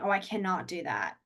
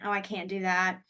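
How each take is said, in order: First: The negative is said in full, two syllables. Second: The negative is contracted to one syllable. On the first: This is the less common way to say it. "versus saying" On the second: This is the more common everyday way to say it. "Most of the time we say can't"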